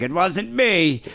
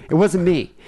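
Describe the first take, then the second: First: High, drawn-out mock protest; dad's denial. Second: High, louder retold protest; furious girlfriend denial. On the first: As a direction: stretch out an imitated innocent denial. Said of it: "And my dad's like". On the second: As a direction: imitate an angry, quick denial. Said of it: "She was just furious".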